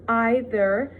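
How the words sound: The final R sound is clearly pronounced. "American speakers would pronounce like the R at the end, like I did it"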